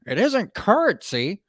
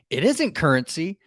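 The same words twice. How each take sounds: First: It is read in a put-on voice. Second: It is read in a plain voice.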